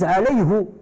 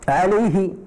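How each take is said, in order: First: The word ends with a u vowel. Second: The word ends with an i vowel. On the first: Other speakers say it this way. "D'autres ils disent" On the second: One dialect says it this way. "un dialecte où on disait"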